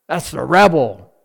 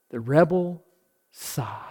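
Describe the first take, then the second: First: Said in the usual way. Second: Fading into a whisper on sigh; sighed words. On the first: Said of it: "But a rebel sigh?". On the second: Shown as a demonstration. Preacher showing the rebel sigh, fading to a whisper. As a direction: let the phrase die into a breathy whisper.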